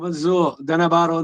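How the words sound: The name is broken after 'Madhusu'. The speaker calls it wrong. "ಅಂತ ಬಿಡಿಸ್ಬಾರ್ದು"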